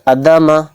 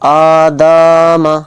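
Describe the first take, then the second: First: The word is said quickly with no long vowels. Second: The vowel after the d sound is stretched long. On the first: "तो इसको जल्दी पढ़ दिया" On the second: "यानी दाल को खींच दिया"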